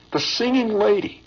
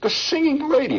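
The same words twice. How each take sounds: First: Higher, surprised naming of her; excited recall. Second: Much higher, emphatic second naming; amazed repeat. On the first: Old soldier marvels at the singer, excited. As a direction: marvel at who it was. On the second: Old soldier repeats her name to listener, amazed. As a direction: say it again, more amazed. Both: Retold or imitated.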